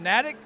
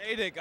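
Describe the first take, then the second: First: Natick with a short a, as in "attic"; unsure pronunciation. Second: Natick as NAY-dik; corrected pronunciation. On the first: Real, not acted. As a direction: say Natick as NAT-ik. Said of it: "I believe it's how you pronounce it". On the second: Shown as a demonstration. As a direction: Natick with a long a, as in "day". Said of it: "I thought it was Natick".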